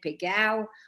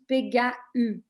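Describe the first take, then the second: First: The word ends in a gliding ao sound. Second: The final a and u are said separately. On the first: This is the Provençal pronunciation. The speaker calls it right. "If they pretend to speak Provençal" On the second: This is how it is read with the umlaut. The speaker calls it wrong. "the letter completely dissociate"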